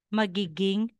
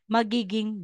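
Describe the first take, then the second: The two takes are said the same way.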